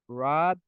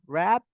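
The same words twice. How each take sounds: First: The vowel is said low. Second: The vowel is said high. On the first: The speaker calls it right. "that is correct" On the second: The speaker calls it wrong. "Alto, rap, no"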